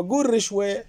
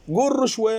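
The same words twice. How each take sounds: First: رشوة as "rishwe", with short i; kasra on ra. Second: رشوة as "rushwe", with short u; damma on ra. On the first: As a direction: tell them to say رشوة with "ri". (قول رشوة بكسر الراء) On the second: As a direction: tell them to say رشوة with "ru". (قول رشوة بضم الراء) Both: Acted. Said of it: "هم يقولون".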